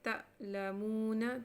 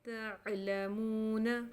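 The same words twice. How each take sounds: First: The consonant is a sharp glottal catch. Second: The consonant is a smooth sound from mid-throat.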